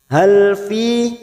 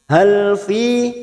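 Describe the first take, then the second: The two takes are said the same way.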